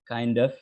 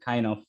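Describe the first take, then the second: First: The d sound links into the next word. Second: The d sound is left out entirely. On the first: "it's a linking and it is kind and ends with the d sound" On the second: "delete the d sound"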